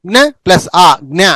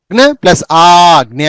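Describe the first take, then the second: First: జ్ఞ as "gna" with a short a; short vowel. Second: జ్ఞ as "gnaa", slowly drawn out; long vowel. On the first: Teacher introducing the rare letter జ్ఞ, short vowel. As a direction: keep ఆ brief in జ్ఞ. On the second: Teacher introducing the rare letter జ్ఞ, long vowel. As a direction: stretch ఆ and జ్ఞ. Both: Shown as a demonstration. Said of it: "డెబ్బై ఎనిమిదో పేజీలో జ్ఞ".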